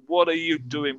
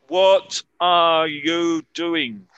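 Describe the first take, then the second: First: The words run together quickly. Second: Each word is said separately and clearly. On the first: The speaker calls it right. "más para mí decirlo es" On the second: The speaker calls it wrong. "generalmente nadie se va a hablar así"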